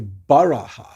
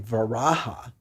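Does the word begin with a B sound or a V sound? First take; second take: B sound; V sound. First: The word begins with a B sound. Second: The word begins with a V sound. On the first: This is how it is named in Nepal's Tibetan Buddhism. "they say Baraha for the for the boar form" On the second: This is how Vaishnavas name the boar form. "they don't say Varaha"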